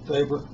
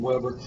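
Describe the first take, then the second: First: The name is said with a German pronunciation. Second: The name is said with an American pronunciation. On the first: "German, it's actually pronounced Weber" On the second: "the Americanized present, uh, pronunciation Weber"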